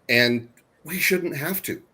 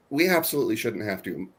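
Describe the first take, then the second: First: "shouldn't" leaned on, slow and rising; slow emphatic "shouldn't"; stress on shouldn't. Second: "We" hit first and hardest; "We" punched up front; stress on we. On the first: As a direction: lean on "shouldn't" and let it rise. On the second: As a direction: open firmly on "We". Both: Real, not acted.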